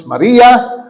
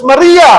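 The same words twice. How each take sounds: First: Calling her name. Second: Much higher, louder call of Maria; calling out her name. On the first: Jesus calls Mary by name, calling out. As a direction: call out her name with recognition. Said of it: "Sabi ni Jesus". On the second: Jesus calls Mary by name, loud and high. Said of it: "sinabi ng Panginoong Hesus". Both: Acted.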